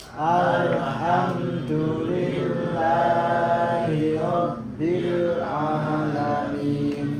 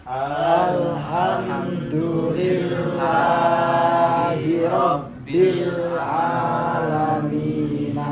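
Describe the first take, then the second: No difference in how they are said.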